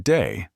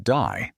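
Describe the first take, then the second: First: Said in the usual way. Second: "die." as the Australian way of saying day, vowel opened to "eye"; Australian-style vowel. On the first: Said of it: "they might say a word like day". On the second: Shown as a demonstration. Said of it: "sounds a little more like".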